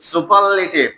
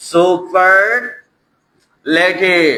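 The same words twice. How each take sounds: First: Said in the usual way. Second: superlative stretched very slowly, falling at the end; slowly drawn out. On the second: Shown as a demonstration. Teacher announcing the new topic, stretching the word slowly. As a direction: draw out "superlative" syllable by syllable. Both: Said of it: "এবার superlative".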